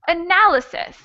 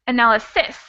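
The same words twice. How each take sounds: First: The stress is on the second syllable. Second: The stress is on the last syllable. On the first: The speaker calls it right. "It sounds like analysis" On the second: The speaker calls it wrong. "the last syllable is actually not the stressed syllable, because if it were, it would sound like analysis"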